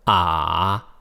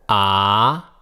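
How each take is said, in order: First: The syllable carries the third tone. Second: The syllable carries the second tone.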